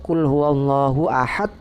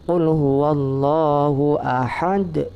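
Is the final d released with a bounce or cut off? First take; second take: cut off; bounce. First: The final d is cut off without any bounce. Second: The final d is released with an echoing bounce. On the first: The speaker calls it wrong. "tidak ada pantulannya, itu salah" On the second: The speaker calls it right. "dibaca dengan qalqalah kubro, dipantulkan"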